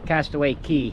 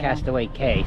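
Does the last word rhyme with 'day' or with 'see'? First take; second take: see; day. First: The last word sounds like 'key'. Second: The last word sounds like 'kay'. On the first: The speaker calls it right. "they do pronounce it Key" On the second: The speaker calls it wrong.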